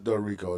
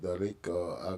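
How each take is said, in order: First: The name is said with an English accent. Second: The name is said with a Spanish accent. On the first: "I just do it in English" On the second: "if they're like Spanish, they'd be like"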